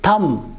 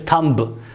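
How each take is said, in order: First: No b sound is heard after the m. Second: A b sound is heard after the m. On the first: The speaker calls it right. "this sound will not be pronounced" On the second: The speaker calls it wrong. "We normally pronounce it as thumb"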